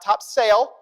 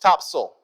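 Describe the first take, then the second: First: It is said in a non-Southern way. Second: It is said the Southern local way.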